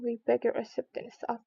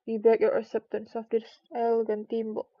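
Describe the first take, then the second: First: Said in the usual way. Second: Louder ceremonious presentation; solemn formal speech. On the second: A narrator's reading. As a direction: present it with pomp. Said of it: "solemnly presented the thimble".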